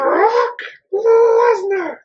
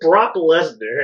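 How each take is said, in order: First: The name is proclaimed in an exaggerated announcer voice. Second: The name is said in an ordinary speaking voice. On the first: The speaker calls it right. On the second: The speaker calls it wrong.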